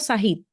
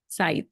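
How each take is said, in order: First: An H sound is heard inside the name. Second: No H sound is heard inside the name. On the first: The speaker calls it wrong. "¿Es Said o Sahid?" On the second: The speaker calls it right. "la H no suena"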